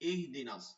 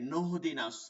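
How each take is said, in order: First: The word begins with a fresh 'ih' sound. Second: The word begins with a linked 'nah' sound. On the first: The reader stops before it and starts anew. "থাইমা পড়লে" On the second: It is joined to the previous word. "মিলাই পড়লো কি হবে"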